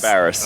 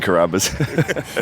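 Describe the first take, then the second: First: The consonants come in the order b then r. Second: The consonants come in the order r then b. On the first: The speaker calls it right. "Cabarrus, yeah, Cabarrus" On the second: The speaker calls it wrong. "A lot of people say Carrabba's"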